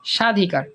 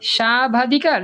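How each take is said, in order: First: No 'b' sound follows the opening 's'. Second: A 'ba' sound follows the opening 's'. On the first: The speaker calls it right. "বফলার কোনো উচ্চারণ হয় না" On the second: The speaker calls it wrong. "কি বলি স্বাবাধিকার নাকি স্বাধিকার"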